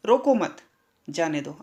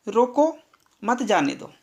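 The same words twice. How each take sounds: First: रोको मत together, a gap, then जाने दो much lower; pause after मत. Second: रोको raised, a clear gap, then मत जाने दो falling; "रोको", beat, "मत जाने दो" in one phrase; pause after रोको. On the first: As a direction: attach मत to रोको, stop, then let जाने दो drop. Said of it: "लेकिन तीसरे वाक्य में". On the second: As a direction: stop after रोको and run मत जाने दो together. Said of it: "दूसरे वाक्य में क्या कहा गया है". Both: Shown as a demonstration.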